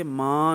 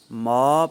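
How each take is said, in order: First: ماں with the vowel pushed into the nose; teacher imitating the wrong nasal ماں; wrong nasal maan. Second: ما said as a clean open ma, nothing through the nose; teacher demonstrating the right ما, loud and slow; correct ma, no nasal. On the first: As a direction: show the mistake: ماں nasalized. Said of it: "ما کو ماں پڑھنا غلط ہے". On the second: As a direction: say ما plainly and stressed, no nasal n. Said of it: "ماں نہیں پڑھیں گے". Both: Shown as a demonstration.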